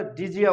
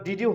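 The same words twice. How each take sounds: First: "ডিজিয়া" with d and y fused into j; linked pronunciation. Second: Said in the usual way. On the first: Shown as a demonstration. Teacher gives the resulting pronunciation, "ডিজিয়া" with a j link. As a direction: run it together as di-jia, "ডিজিয়া". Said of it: "তখন আমরা ডিজিয়া উচ্চারণ করব". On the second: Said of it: "তখন আর ডিডিউ হবে না".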